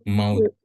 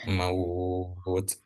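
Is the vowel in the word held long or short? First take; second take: short; long. First: The vowel is said short. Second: The vowel is held long. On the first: The speaker calls it wrong. "Bukan maut" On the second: The speaker calls it right. "Jadi dibacanya panjang"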